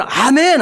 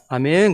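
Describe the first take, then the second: First: Emphatic, high, loud amen; eager amen. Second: Said in the usual way. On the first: Acted. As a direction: answer with a wholehearted, raised amen. Eager amen now, versus before.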